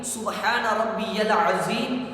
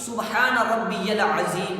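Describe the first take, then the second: No difference in how they are said.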